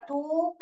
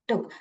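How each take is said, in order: First: The vowel is drawn out long. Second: The vowel is clipped short. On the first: The speaker calls it wrong. "ऐसे थोड़े पढ़ते हैं" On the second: The speaker calls it right. "कहाँ पर आपको छोटी पढ़ना है"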